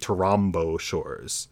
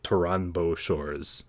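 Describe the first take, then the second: First: The nasal takes the place of the following consonant. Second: The nasal keeps its own place before the consonant. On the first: This is how native speakers of the source language would say it. "It would have to assimilate to the place of articulation of the ensuing consonant" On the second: This follows the spelling directly and sounds more foreign. "we're transliterating very directly without really an appreciation of Japanese phonology"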